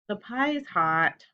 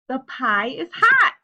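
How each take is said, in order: First: It is said plainly with flat, quiet delivery. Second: It is said louder with lively, excited feeling. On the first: The speaker calls it wrong. "I'm not just saying the pie is hot" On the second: The speaker calls it right. "I'm saying it with a lot of feeling"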